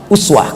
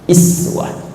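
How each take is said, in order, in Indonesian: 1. Vokal pertama adalah bunyi 'oo' yang membulat. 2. Vokal pertama adalah bunyi 'ee' yang melebar. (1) "riwayat Hafiz dari Asim" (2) "riwayat Qalun Tawarash dari Nafi'"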